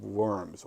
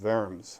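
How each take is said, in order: First: Worms is said with an English pronunciation. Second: Worms is said with a German pronunciation.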